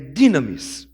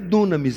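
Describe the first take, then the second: First: The first vowel sounds like 'ee'. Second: The first vowel sounds like 'oo'. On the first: The speaker calls it right. "é dinamis" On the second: The speaker calls it wrong. "Não é dunamis"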